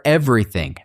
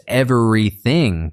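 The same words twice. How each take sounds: First: Said in the usual way. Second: "everything" sounded out in parts, ev-er-y-thing; careful practice pronunciation. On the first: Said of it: "maybe you have to practice everything". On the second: Shown as a demonstration. Teacher modelling a tricky word, "everything" said syllable by syllable. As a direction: break "everything" into clear syllables with a distinct V and th. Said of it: "practice everything to get the V".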